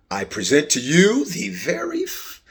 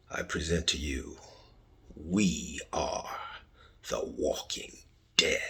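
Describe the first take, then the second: First: Said in the usual way. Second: Unvoiced dramatic whisper of the title. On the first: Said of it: "podcast announcement". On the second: Shown as a demonstration. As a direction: breathe the show name out like a secret. Hushed repeat of show title.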